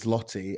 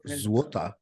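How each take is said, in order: First: The second sound is a plain L. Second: The second sound is a W. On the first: The speaker calls it wrong. "which I thought was Zloty" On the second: The speaker calls it right. "it's pronounced Złota"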